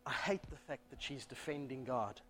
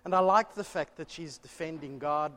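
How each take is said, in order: First: The word hate pushed hard, the rest dropping soft and low; stress on hate. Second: The word like lifted and leaned on; stress on like. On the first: Preacher contrasting like and hate, stressing hate. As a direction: land on hate and let the line fall away. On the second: Preacher contrasting like and hate, stressing like. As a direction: hit like, then let the rest run on evenly. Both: Shown as a demonstration.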